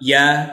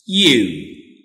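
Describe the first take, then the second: First: The word is said in its reduced form. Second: The word is said in its full form. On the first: "the weak form we pronounce" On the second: "the strong form of this word we pronounce"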